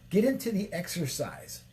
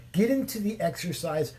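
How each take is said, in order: Both takes have the same delivery.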